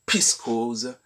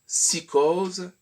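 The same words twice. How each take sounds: First: "psychose" said pis-kose, p and s swapped; "psychose" as piskose; usual pronunciation. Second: "psychose" said si-kose, slow; "psychose" drawn out slowly as sikose; silent p. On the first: Teacher to online pupils, contrasting the usual "psychose" said piskose. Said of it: "et non pas une". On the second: Teacher to online pupils, modelling "psychose" as sikose in a sentence. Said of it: "ce sera". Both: Shown as a demonstration.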